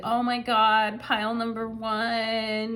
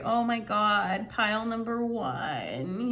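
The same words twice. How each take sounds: First: Put-on mild East Coast accent, slow on pile number one; lightly put-on East Coast accent, swooning. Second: Lightly put-on East Coast accent, slow and sweet; drawn-out East Coast accent, doe-eyed. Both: Tarot reader voicing the needy partner, mild East Coast accent. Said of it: "I'm talking in an East Coast accent".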